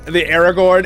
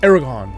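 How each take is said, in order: First: The final 'gorn' syllable is fully pronounced. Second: The final 'gorn' syllable is dropped or weakened.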